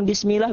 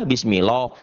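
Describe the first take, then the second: First: "bismillah" ending in open "-lah"; raised, thin-ended "bismillah". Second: "Bismillah" ending in round "-loh"; wrong thick bismillah. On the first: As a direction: say "bismillah" with light L and A vowel. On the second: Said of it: "Ya, enggak". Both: Shown as a demonstration.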